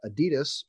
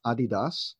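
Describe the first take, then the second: First: Said in the usual way. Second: "Adidas" said the German way, AH-dee-dahs; proper German pronunciation. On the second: Shown as a demonstration. Host showing off the brand's proper name, "Adidas" pronounced AH-dee-dahs. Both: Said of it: "or as properly pronounced".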